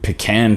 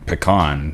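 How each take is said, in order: First: "pecan" said pih-KAN, stress on the second syllable with a flat a as in can. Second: "pecan" said puh-KAHN, weak first vowel and a broad ah in the stressed syllable; retry "pecan" as puh-KAHN with an open ah. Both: Real, not acted. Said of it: "however you say it".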